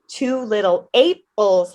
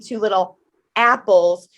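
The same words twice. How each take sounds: First: Apples begins with the long A vowel. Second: Apples begins with the short A vowel. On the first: "you could substitute it with long A" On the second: "instead of saying two little apples"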